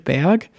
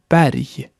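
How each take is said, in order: First: The final g sounds like a k. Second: The final g sounds like a y. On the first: The speaker calls it wrong. "wie der deutsche Berg" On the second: The speaker calls it right. "aber man spricht Berg"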